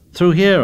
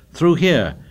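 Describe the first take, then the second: First: Louder, much higher repeated call; insistent call. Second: Higher-pitched urgent call. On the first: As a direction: press the order forcefully. Repeats the call after being contradicted. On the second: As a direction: call the hunters through. Boys calling out during the hunt. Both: A narrator's reading.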